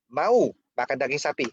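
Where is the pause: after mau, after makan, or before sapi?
after mau. A pause comes right after the first word. Asking whether the listener wants it or not. "Mau atau enggak kan?"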